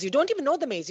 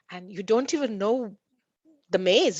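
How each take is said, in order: First: "don't" lifted high, repeated with insistence; emphatic repeat. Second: Said in the usual way. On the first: Shown as a demonstration. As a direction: hammer home "You don't even know the maze", pitched up.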